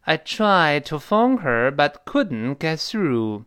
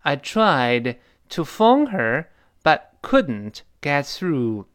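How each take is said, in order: First: Slow, drawn-out model sentence; slow example. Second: Slow, drawn-out model sentence again; slow repeat. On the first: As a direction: read it slowly for learners. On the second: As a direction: model it slowly once more. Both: Shown as a demonstration. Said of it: "你比方说".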